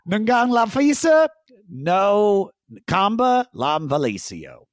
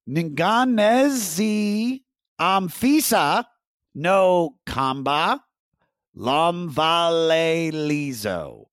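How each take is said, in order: First: The name is said fast. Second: The name is said slowly.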